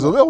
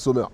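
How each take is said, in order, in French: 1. Le nom commence par un son z. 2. Le nom commence par un son s. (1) "Zomer ou c'est Sommer?" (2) "Zomer ou c'est Sommer?"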